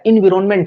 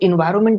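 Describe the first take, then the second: First: The middle is said as 'vi-ron', with the 'ron'. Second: The middle is said as 'vai-ar', without the 'ron'. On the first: The speaker calls it right. "इसका जो correct जो बोलने का तरीका है वो इन्विरोनमेंट है" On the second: The speaker calls it wrong. "इन्वायरमेंट नहीं होता है"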